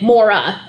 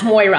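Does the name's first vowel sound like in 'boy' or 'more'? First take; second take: more; boy. First: The first vowel sounds like the 'or' in 'more'. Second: The first vowel sounds like the 'oy' in 'boy'. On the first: This is how the speaker's family says the name. "only I pronounce it Mora" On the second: This is how the name may be said in the UK. "in the U K, the name itself may be pronounced Moira"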